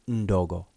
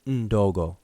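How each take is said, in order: The two takes are said the same way.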